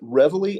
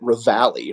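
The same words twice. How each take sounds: First: It is pronounced the American way. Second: It is pronounced the British way. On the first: "Americans pronounce it Reveille" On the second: "the British pronounce it Reveille"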